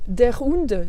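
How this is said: It is said with a strong French accent. The speaker calls it wrong. "ça fait super français"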